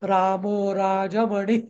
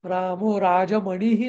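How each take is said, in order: First: The word ends without any added hi sound. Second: The word ends with an added hi sound. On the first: The speaker calls it right. "असं म्हणतो आपण" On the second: The speaker calls it wrong. "नाही म्हणत"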